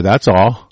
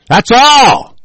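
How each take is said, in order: First: Said in the usual way. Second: That's all, shouted higher and louder; sudden angry yell. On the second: Real, not acted. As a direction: bark it out in anger. Repeats phrase, then yells it.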